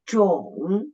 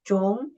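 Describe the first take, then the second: First: The pitch dips low and then rises. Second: The pitch rises from middle to high. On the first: "the third tone, down at first, and then raise up" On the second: "the second tone, raise up"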